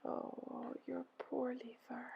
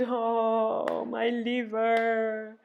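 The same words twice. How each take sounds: First: Hushed, slow sigh of empathy; soft echoed sigh. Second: Long, high, voiced sigh. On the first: Helpers echo Ereshkigal's pain, whispery sympathetic sigh. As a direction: sigh it back in a near whisper. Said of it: "They sighed". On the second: Ereshkigal sighing over her liver, long high wail. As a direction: stretch the words into a wailing sigh. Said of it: "She sighed". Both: A narrator's reading.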